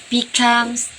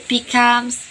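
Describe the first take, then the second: No difference in how they are said.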